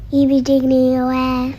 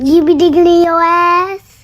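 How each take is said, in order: First: It is said in a sad tone. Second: It is said in a mad tone.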